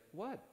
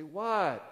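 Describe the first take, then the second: First: Said in the usual way. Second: What? snapped high and loud, irritated; sharp loud what. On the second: Shown as a demonstration. Husband snapping at his wife over tone, loud and sharp. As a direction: bark What? high and hard like a spouse offended. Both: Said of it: "you know that tone matters".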